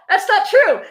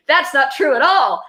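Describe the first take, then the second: First: Much higher, strained "not true"; a squeaky outraged denial; squeaky protest. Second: Higher, louder objection; calling out a falsehood, pitched up; indignant protest. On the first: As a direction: rise up in disbelief. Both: Real, not acted. Protesting the book's claim.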